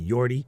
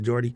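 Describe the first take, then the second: First: The name begins with a y sound. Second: The name begins with a j sound. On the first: This is how it is said in the Netherlands. The speaker calls it right. "if I'm going to say it correctly, in Norland, it might be" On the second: This is how it is said in English. The speaker calls it wrong. "instead of"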